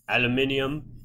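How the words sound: The word is said with five syllables.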